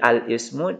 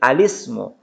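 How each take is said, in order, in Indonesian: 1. Ada hamzah sebelum vokal pada ismu. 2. Huruf l langsung menyambung ke ismu tanpa berhenti. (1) "memindahkan harokat hamzah" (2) "memindahkan harokat hamzah, kepada huruf sebelumnya"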